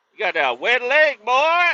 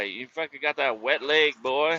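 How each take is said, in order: First: Much higher, louder mocking shout; hammed-up loud teasing shout; teasing yell. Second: Said in the usual way. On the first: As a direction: holler the taunt so everyone hears. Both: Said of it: "I was like".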